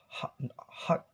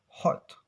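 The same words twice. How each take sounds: First: "hot" as haht, open ah vowel; American A-like O. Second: "hot" with a rounded aw-like o; British O sound. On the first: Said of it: "O sounds may change become A". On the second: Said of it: "in British". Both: Shown as a demonstration.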